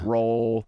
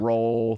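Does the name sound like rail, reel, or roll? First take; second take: roll; roll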